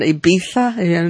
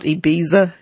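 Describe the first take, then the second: First: The name has a Spanish-style pronunciation. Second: The name has an English-style pronunciation. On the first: The speaker calls it right. "have to and Ibiza" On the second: The speaker calls it wrong. "Not Ibiza"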